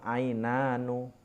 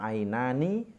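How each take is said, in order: First: The final syllable ends with an u vowel. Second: The final syllable ends with an i vowel. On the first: It keeps the rhyme with the line before. The speaker calls it right. "nunnya di situ dibaca dhammah" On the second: The rhyme with the line before is lost. The speaker calls it wrong. "Kalau dibaca ainani itu kan keindahannya hilang"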